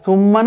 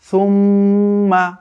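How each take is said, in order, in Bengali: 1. ম ধ্বনিটি ছোট, কোনো নাসিক্য টান ছাড়া। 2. ম ধ্বনিটি দীর্ঘ করে এবং নাসিক্য স্বরে উচ্চারিত হয়। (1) "এখন এটা আর সুম্মা না" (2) "এখন এটা সুম্মা। অর্থাৎ এই মিমকে এবার দীর্ঘ করে"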